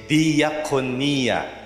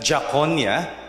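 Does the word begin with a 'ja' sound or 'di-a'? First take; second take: di-a; ja. First: The start is said as two syllables, 'di-a'. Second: The start is squeezed into one 'ja' sound. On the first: The speaker calls it right. "But you say diakonia" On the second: The speaker calls it wrong. "you don't pronounce it that jakonia"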